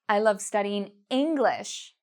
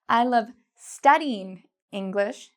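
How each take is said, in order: First: The word English is louder and longer. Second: The word studying is louder and longer. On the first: Only this language is loved, not other languages. "English is louder and longer" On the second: Only studying is loved, not using the language. "studying is louder and longer"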